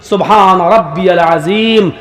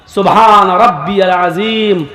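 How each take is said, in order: Both takes have the same delivery.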